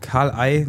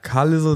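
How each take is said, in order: First: The s in the middle is silent. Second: The s in the middle is pronounced. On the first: The speaker calls it right. "statt Karl Ei" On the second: The speaker calls it wrong. "wenn im Englischen was völlig schief geht"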